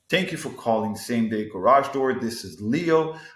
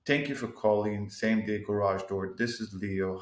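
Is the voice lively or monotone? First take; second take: lively; monotone. First: The pitch moves up and down with lively energy. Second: The pitch stays flat with little energy throughout. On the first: The caller feels welcomed and willingly helped. The speaker calls it right. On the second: The caller gets a bad first impression. The speaker calls it wrong.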